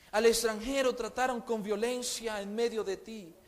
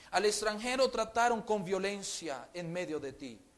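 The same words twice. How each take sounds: No difference in how they are said.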